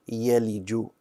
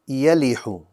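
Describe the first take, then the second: First: The last consonant is a j sound. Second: The last consonant is an h sound. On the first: The speaker calls it right. "it should have been a jim" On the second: The speaker calls it wrong. "I pronounced it as a ha"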